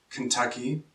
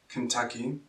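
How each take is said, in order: The two takes are said the same way.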